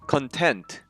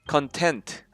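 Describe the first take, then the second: No difference in how they are said.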